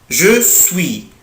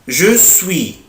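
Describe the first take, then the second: Both takes have the same delivery.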